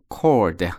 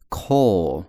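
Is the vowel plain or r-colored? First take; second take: r-colored; plain. First: The vowel has an added r-coloring. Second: The vowel is plain, with no r. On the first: The speaker calls it wrong. "以下读法都是错的" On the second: The speaker calls it right. "这几个地方呢都不卷舌头，所以它正确的一个读法就是"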